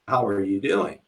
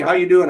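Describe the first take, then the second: First: It is said slowly. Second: It is said fast.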